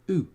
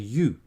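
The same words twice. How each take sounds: First: The vowel sounds like a plain oo. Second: The vowel sounds like the letter name U. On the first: The speaker calls it wrong. "not an U" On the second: The speaker calls it right. "It's simply the way a letter is said"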